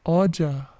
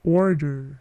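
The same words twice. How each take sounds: First: It is said with a British accent. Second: It is said with an American accent. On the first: "British mengucapkan dengan bunyi order" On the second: "Tapi jika American"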